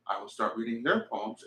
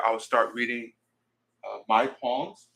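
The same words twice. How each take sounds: First: THEIR picked out before "poems"; stress on THEIR. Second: MY picked out before "poems"; stress on MY. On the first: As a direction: lean on the word THEIR. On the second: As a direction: lean on the word MY. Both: Real, not acted. Contrasting whose poems get read.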